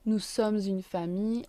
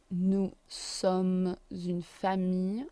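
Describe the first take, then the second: First: "sommes une" linked with a z; liaison. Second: "sommes une" said slowly with the link; slow down across "sommes une"; slow liaison. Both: Shown as a demonstration. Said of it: "Liaison again".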